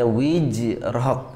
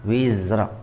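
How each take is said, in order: First: The middle consonant is a j sound. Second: The middle consonant is a z sound. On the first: The speaker calls it wrong. "Jangan sampai dibaca wijrak" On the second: The speaker calls it right. "ini membedakan antara zai sama jim"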